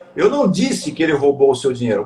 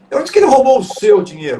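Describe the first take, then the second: First: The stress falls on the word disse. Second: The stress falls on the word seu. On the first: It was implied rather than said. "se eu não disse, eu fiz o quê? Eu insinuei?" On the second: The money belonged to someone else. "se não foi o seu, foi de quem?"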